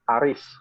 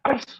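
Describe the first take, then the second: First: It is said as a plain call. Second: It is said sharply with an angry tone. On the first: The speaker is calling someone. "Manggil ya" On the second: The speaker is angry. "sadis tuh ya, pedes, marah berarti kan"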